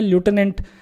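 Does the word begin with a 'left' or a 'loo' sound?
loo. It is said with an American 'loo' sound first. "American English में ल्यूटेनेंट pronounce किया जाता है"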